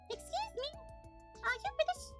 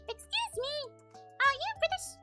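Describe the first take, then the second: First: It is said in the speaker's natural voice. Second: It is said in a put-on character voice.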